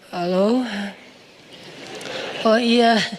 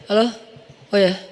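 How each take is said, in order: First: The voice is soft and drowsy, deliberately softened. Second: The voice is plain and ordinary, not softened. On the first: The voice is made alluring to the listener. The speaker calls it wrong. "kayak orang baru bangun tidur gitu" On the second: The voice is just ordinary talk. The speaker calls it right. "Biasa aja"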